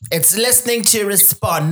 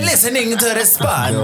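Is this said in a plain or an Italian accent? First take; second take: plain; Italian. First: It is said in a plain, natural accent. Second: It is said in an exaggerated Italian accent.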